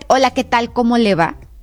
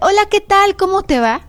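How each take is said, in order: First: It is said in an angry tone. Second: It is said in a friendly tone.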